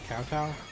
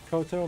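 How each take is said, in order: First: The first syllable sounds like 'cow'. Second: The first syllable sounds like 'co'. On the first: "Maybe it's Kowtow" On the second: "I think it's pronounced Koto"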